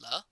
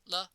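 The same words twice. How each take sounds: First: The syllable has a rising tone. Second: The syllable has a neutral tone. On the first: It means 'it'. "la rising tone" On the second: It is a verb completion particle. "la with no or neutral tone"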